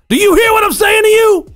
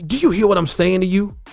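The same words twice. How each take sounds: First: Yelled loudly with strained volume. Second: Spoken at normal volume with energetic emphasis. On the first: Energy comes from volume alone. The speaker calls it wrong. "I didn't say" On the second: Energy comes from tone rather than volume. The speaker calls it right. "See how I just put more emphasis in"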